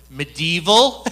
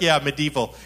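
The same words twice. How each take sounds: First: Louder, amused incredulous question; retold surprise with a rising lilt. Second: Said in the usual way. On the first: Retold startled question about hell.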